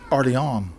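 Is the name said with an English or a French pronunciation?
French. It is said with a French pronunciation. The speaker calls it right. "it's Orleans"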